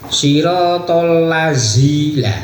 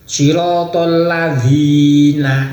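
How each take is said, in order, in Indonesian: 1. Konsonan tengahnya adalah bunyi z. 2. Konsonan tengahnya adalah bunyi dh.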